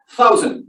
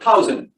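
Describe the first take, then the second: First: "Thousand" with a breathy th, no t; correct th. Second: "thousand" said as "tousand" with a hard t; "thousand" starting with a t instead of th; wrong t sound. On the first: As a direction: say "Thousand" with th blown through the teeth. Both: Shown as a demonstration. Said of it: "not thousand".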